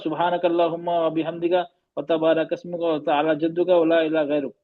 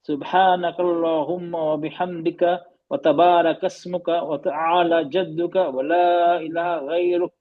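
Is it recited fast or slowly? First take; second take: fast; slowly. First: It is recited quickly and hurriedly. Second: It is recited slowly and calmly.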